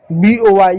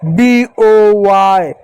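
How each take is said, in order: First: Said in the usual way. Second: Letter names drawn out very slowly; spelled out slowly. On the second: Shown as a demonstration. Teacher spelling letter names to students, drawn out slowly. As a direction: spell each letter name out, stretching it. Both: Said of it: "ये तो सिर्फ उनका नाम आ रहा है".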